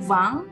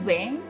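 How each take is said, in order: First: The vowel sounds like 'ang'. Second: The vowel sounds like 'eng'. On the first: "kalau ada yang melafalkan dua puluh dengan vang, itu juga benar" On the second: "Kalau ada yang melafalkan dua puluh dengan veng, itu benar"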